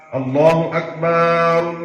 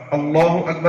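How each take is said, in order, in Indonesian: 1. Suku kata terakhir 'bar' dipanjangkan. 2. Tidak ada vokal yang dipanjangkan. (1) "Tapi setelah itu ada kesalahan, yaitu bar" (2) "Allahu Akbar artinya apa? Allah Maha Besar"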